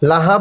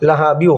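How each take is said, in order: First: The word ends in a stop before the next. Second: The word runs straight on into the next word. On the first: "যদি মিলিয়ে পড়তে না চান" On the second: "যদি মিলিয়ে পড়তে চান"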